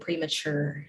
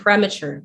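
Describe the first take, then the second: First: The stress is on the last syllable. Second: The stress is not on the last syllable. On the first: "So the stress would be on the last syllable" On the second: "But you say premature, premature like this"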